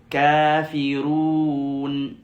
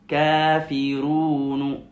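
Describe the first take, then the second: No difference in how they are said.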